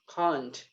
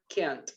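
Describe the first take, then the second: First: It is said with a British accent. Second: It is said with an American accent.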